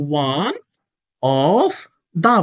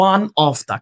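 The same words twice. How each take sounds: First: ONE, OF, THE each held apart by pauses; lower, spaced-out "One", "of", "the" as if writing along; word-by-word dictation. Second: Said in the usual way. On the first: Shown as a demonstration. Dictates words while placing them.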